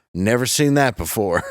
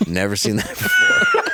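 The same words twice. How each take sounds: First: Said in the usual way. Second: A much higher, laughing yelp of the same line; laughing shout. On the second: Retold or imitated. Echoing the cashier for friends, with a laughing shout. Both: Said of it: "And she's like".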